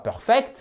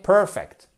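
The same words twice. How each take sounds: First: The stress falls on the second syllable. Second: The stress falls on the first syllable. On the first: The speaker calls it wrong. "ce n'est surtout pas perfect" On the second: The speaker calls it right. "mais perfect"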